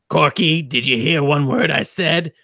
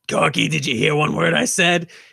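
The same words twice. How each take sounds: First: The voice is plain, not husky. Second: The voice is husky and rough. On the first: The speaker calls it wrong. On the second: The speaker calls it right.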